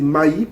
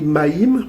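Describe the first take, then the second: First: The word ends on the vowel, without m. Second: The word ends with an audible m sound. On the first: The final consonant was silent in the ancient language. The speaker calls it right. "mais c'est maï parce que la consonne finale en paléo-hébreu est souvent sourde" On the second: This is the common way of saying it. The speaker calls it wrong. "On dit maïm"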